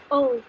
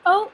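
First: O said as a pure French "oh"; French letter name. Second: Said in the usual way. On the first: Shown as a demonstration. Teacher shows the French letter, O as pure "oh". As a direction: say O without gliding to w. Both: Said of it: "O is pronounced as O".

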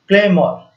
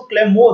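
First: "क्लेमोर" as one word with an open 'or' ending; actual pronunciation. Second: "क्लेमोर" said as claim + more; memory-aid pronunciation. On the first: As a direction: say "क्लेमोर" as CLAM-or, not claim-more. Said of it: "इसका pronunciation होगा". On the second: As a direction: end "क्लेमोर" on a long-o 'more'. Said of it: "यहाँ पर आ रहा है मोर". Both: Shown as a demonstration.

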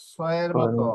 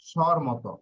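First: "স" with a clear hissed s; S sound demonstrated. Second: "স্বর" opening on a sh sound; SH sound demonstrated. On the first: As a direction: sound out "স" as a plain s. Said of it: "এস অক্ষরের উচ্চারণ". ("স" দন্ত্য স-এর মতো উচ্চারণ) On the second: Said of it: "এই তিন ধরনের হবে". ("স্বর" তালব্য শ-এর মতো উচ্চারণ) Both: Shown as a demonstration.

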